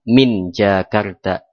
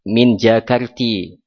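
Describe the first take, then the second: First: The last word ends with an 'a' vowel. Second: The last word ends with an 'i' vowel. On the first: The speaker calls it right. "sama juga bacaannya" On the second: The speaker calls it wrong.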